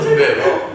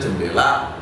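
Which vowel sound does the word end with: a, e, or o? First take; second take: o; a. First: The word ends with an o sound. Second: The word ends with an a sound. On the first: This is the East Java way of saying it. "Oh jendelo, bukan jendole" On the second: This is the western Banyumas way of saying it. "kalau di Banyumas ngomong jendela itu ya jendela"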